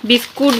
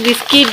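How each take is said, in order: First: বিস্কুট spoken in its fuller bookish form, bis-KUT; biscuit as biskut. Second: বিস্কিট in the everyday spoken form, bis-kit; biscuit as biskit. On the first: Showing viewers one way to say it, বিস্কুট as bis-kut. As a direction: say বিস্কুট with a clear u in the second syllable, bis-kut. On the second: Offering viewers the other way to say it, বিস্কিট as bis-kit. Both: Shown as a demonstration. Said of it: "যা বলবেন বলবেন".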